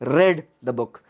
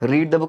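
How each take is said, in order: First: The word read rhymes with bed. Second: The word read rhymes with need. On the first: The action happened in the past. The speaker calls it right. "Spelling same है but pronunciation अब बदल चुका है" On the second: The action happens now or habitually. The speaker calls it wrong. "रीड the book नहीं है"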